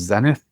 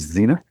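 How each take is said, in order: First: It is said in a non-American pronunciation. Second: It is said in an American pronunciation.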